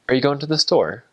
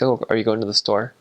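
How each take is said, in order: First: English accent, with a higher rise at the end. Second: American accent, without a high rise at the end.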